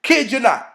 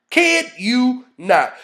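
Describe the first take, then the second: First: Said in the usual way. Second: Slow emphasis. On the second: Real, not acted. Speaker swearing he means it, slow emphasis.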